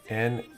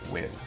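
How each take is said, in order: First: The name is split into two syllables. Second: The name is said as one syllable. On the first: The speaker calls it wrong. "It's not" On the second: The speaker calls it right. "it's win"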